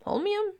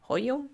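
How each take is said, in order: First: Holmium? much higher rising, full "holmiəm"; high question. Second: Holmium? asked with a rise, "ojum"; questioning. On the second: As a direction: ask Holmium? lightly rising. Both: Shown as a demonstration.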